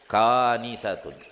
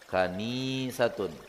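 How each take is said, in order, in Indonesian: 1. Vokal pada suku kata pertama panjang. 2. Vokal pada suku kata kedua panjang. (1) "Ka-nya yang panjang" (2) "Nun-nya yang panjang"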